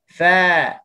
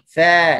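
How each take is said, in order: First: The mouth opens wide, giving a full open vowel. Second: The mouth opens only slightly, giving a narrow vowel. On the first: The speaker calls it right. "Kita kena buka fa" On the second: The speaker calls it wrong. "Nampak kita buka sikit je mulut"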